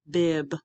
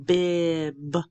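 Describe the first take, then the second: First: BIB said shorter, as one word; said faster. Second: BIB drawn out slowly; stretched out. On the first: Teacher showing students the finished word, BIB said faster. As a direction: bring BIB together quickly. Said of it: "then you can say it faster". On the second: Teacher blending sounds for students, BIB slowly stretched out. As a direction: hold the middle of BIB long. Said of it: "say it slowly and stretched out". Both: Shown as a demonstration.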